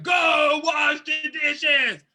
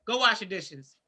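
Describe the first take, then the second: First: Slow, loud shouted command; harsh shouted order. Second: Said in the usual way. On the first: Shown as a demonstration. Showing how the chore request lands on a sensitive person, shouting slowly. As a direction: bark each word slowly like an angry parent. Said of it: "if it comes like hell to that person". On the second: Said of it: "when you say".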